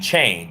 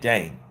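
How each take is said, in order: First: The word is articulated clearly and normally. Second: The word is slurred with blurred consonants. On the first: The speaker's speech is unaffected. The speaker calls it right. "instead of me saying change" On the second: The speaker is tongue tied from punch damage. The speaker calls it wrong. "your ability to articulate words change"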